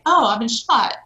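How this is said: It is said with strong, panicked emotion.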